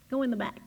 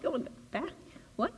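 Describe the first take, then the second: First: Calm inner voice. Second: Soft rising disbelief; incredulous echo. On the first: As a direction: say it gently like a guide. Unseen voice gives an order. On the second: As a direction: repeat it as if you can't believe it. Driver echoes the order incredulously. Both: Retold or imitated.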